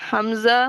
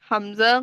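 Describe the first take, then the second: The two takes are said the same way.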